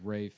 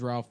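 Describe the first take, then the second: First: The name is said without an L sound. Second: The name is said with an L sound. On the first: The speaker calls it right. "someone said it's Rafe, and it's just pronounced that way" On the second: The speaker calls it wrong. "I thought it was Ralph Fiennes"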